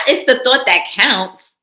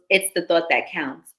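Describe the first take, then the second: First: Put-on smug reassurance to a girlfriend; condescending pat-on-the-head tone. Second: Said in the usual way. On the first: Shown as a demonstration. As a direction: say it like talking down to her.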